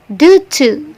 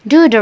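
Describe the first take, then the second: First: The second word is pronounced as 'to'. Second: The second word is pronounced as 'the'. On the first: "Ini dibaca due to" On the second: "kata to itu dibaca the"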